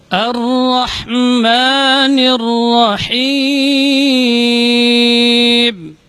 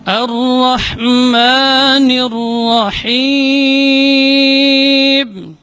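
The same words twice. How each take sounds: The two takes are said the same way.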